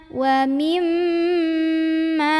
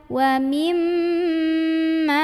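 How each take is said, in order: Both takes have the same delivery.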